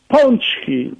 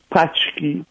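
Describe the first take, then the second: First: The first vowel is a nasal vowel. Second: The first vowel is a plain oral vowel. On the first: It is said the proper native way. The speaker calls it right. "prawidłowo mówić pączki" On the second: A newcomer is trying and failing to say it. The speaker calls it wrong. "Najróżniejsze próby wymówienia"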